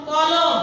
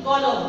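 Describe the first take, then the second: First: কলম read slowly as written, every অ full; slow spelled-out reading. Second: কলম said naturally, the middle অ closed toward ও. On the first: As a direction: stretch কলম out letter by letter. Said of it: "কলম বলি না কিন্তু আমরা". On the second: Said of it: "আমরা কি বলি?". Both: Shown as a demonstration.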